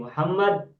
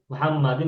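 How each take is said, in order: First: The word ends on the d, without -in. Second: The word ends with an -in syllable. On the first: "menjadi Muhammad" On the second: "Muhammadin menjadi Muhammad"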